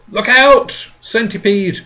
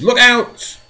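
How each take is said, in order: First: Loud, high warning cry; alarmed shout. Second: Loud, high repeated warning; alarmed shout. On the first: James shouting a warning to the centipede, alarmed. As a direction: yell a sudden warning. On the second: James shouting again as the centipede teeters, panicked. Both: Acted. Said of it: "cried James".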